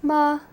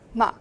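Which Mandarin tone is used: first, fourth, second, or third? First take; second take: first; fourth. First: It is said with the level first tone. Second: It is said with the fourth tone. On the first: "the first tone, which is more like a straight"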